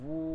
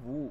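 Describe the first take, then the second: First: The vowel is drawn out and lengthened. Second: The vowel is short and not drawn out. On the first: "এবার এটাকে যদি টান দিই" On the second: "ওয়াও পেশ কে ভু"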